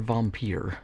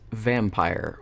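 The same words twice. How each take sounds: First: It has a fancy European-style pronunciation. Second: It has a plain English pronunciation.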